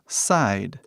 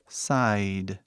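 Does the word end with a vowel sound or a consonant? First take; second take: consonant; consonant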